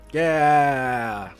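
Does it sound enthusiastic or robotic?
robotic. It is said flat and robotic.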